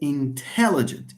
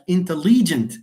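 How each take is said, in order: First: The stress is on the second syllable. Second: The stress is on the third syllable. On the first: "the stress falls on te" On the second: "I don't stress this. I stress the next one. It's li"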